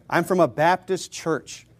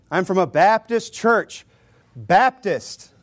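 First: Said in the usual way. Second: Baptist punched and drawn out; emphatic, deliberate weight on Baptist; stress on Baptist. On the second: Shown as a demonstration. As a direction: slowly hammer the word Baptist. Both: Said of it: "Emphasis on the Baptist".

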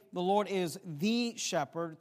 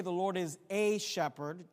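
First: Slow, emphatic "the", pronounced "thee"; stress on THE. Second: "a" stressed as a full "ay". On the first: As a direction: punch "the" as a long "thee". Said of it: "to emphasize the power and position". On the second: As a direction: punch "a", pronounced like the letter A. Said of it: "just to highlight the characteristic". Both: Shown as a demonstration.

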